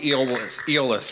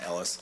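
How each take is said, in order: First: The name sounds like Eolus. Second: The name sounds like Ellis. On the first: The speaker calls it right. "It's actually Eolus, right?" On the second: The speaker calls it wrong. "I was saying it wrong"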